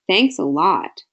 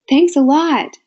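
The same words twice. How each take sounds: First: It is said in an unhappy, sarcastic tone. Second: It is said in an excited, happy tone.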